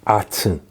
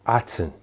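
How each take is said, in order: First: The second vowel sounds like 'eh'. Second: The same.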